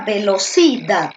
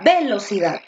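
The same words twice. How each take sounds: First: The stress is on the third syllable. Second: The stress is on the first syllable.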